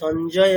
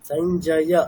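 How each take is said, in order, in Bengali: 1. নামটি একটি ব্যঞ্জনধ্বনিতে শেষ হয়। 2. নামটি শেষ হয় একটি চূড়ান্ত ya স্বরধ্বনি দিয়ে। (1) "সঞ্জয় এরকম না" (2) "ইয়া অকার আছে"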